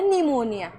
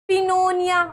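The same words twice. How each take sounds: First: निमोनिया with the P silent, starting on N; teacher gives the right form, निमोनिया in a steady level voice; correct pronunciation. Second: पिनोनिया with the P sounded, said higher and louder; teacher sounds out the wrong form, पिनोनिया with the P spoken, pitched up; wrong pronunciation. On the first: Teacher shows students the right reading, निमोनिया with a silent P. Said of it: "इसको पढ़ना है निमोनिया". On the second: Teacher warns students not to read it this way, P sounded in पिनोनिया. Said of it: "ऐसे नहीं पढ़ना". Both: Shown as a demonstration.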